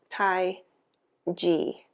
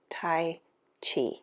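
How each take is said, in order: First: The second word begins with a j sound. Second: The second word begins with a ch sound. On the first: The speaker calls it right. "more of a J sound" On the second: The speaker calls it wrong. "so we naturally want to pronounce it Tai Chi"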